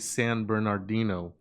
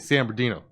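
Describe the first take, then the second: First: Every syllable of the name is said clearly. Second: The syllables slide together into a shorter form. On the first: It sounds like someone not from the city. "you don't say San Bernardino" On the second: It marks someone from the city. "It's all just kind of slides"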